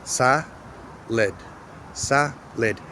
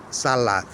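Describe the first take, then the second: First: SA-LID split in two, with a pause between; syllable by syllable. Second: SALAD read letter by letter, with a full second A; spelling pronunciation. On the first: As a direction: break Sa-lid into syllables, reduced vowel in the second. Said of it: "I'm going to read the syllables". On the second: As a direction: give both A's in salad a full vowel. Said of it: "not going to read the letters". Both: Shown as a demonstration.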